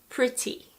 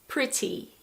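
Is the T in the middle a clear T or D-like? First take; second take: clear T; clear T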